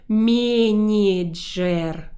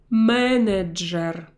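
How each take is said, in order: First: The consonants before the vowels are softened. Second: The consonants before the vowels stay hard. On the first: The speaker calls it wrong. "I do not soften these syllables. I do not say manager" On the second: The speaker calls it right. "I will pronounce them in a hard way"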